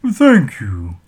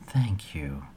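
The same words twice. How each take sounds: First: Loud thanks. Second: Whispered. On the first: Troll thanks loudly. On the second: Selena whispers thanks. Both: A narrator's reading.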